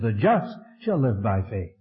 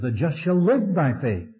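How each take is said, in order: First: The stress falls on the word just. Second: The stress falls on the word live. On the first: "he put the emphasis on the just" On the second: "There he put the emphasis on the life"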